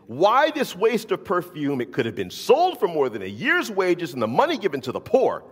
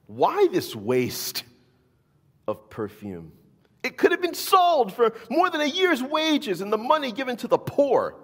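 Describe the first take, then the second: First: Louder, higher indignant complaint; mock the disciples' outrage; indignant retelling. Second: High, loud indignant protest; indignant disciples. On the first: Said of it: "they're indignant". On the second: A narrator's reading. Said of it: "saying indignantly to one another".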